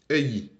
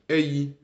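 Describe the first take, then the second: First: The pitch falls on the second syllable. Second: The pitch rises on the second syllable. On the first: It came. "le yi il descend" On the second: It is coming. "le yi cette fois-ci il monte"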